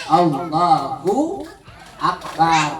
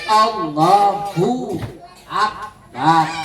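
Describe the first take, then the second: Both takes have the same delivery.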